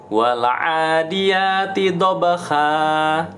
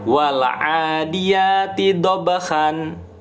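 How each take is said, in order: First: The last word ends on a long a, no n. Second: The last word ends with an n sound. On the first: The reader stops at this word. "diganti, diiwatkan menjadi sa" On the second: The reading continues past this word. "tanwin kan an dibacanya"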